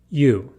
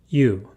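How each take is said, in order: First: The vowel is said with strongly rounded lips. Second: The same.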